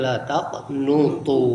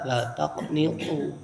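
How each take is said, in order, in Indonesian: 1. Vokal setelah n adalah u. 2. Vokal setelah n adalah i. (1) "didomahkan nunnya" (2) "bikasrin nun artinya dikasrohkan nunnya"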